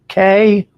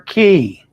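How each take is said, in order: First: The word rhymes with "day". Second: The word rhymes with "see". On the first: "some say K" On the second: "Most of us at Holland America pronounce it key"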